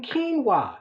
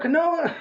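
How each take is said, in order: First: "quinoa" said as KEEN-wah, two syllables; correct pronunciation. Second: "quinoa" said as kwuh-NO-ah, three syllables; wrong pronunciation. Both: Retold or imitated. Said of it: "I was getting the name wrong".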